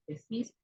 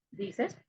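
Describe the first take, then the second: First: Decís said slowly, stressed on the final CÍS; softer, slow decís, weight at the end; stress on last syllable. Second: Said in the usual way. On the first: Shown as a demonstration. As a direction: lean on the second syllable of decís. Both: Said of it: "hay una inversión de I E".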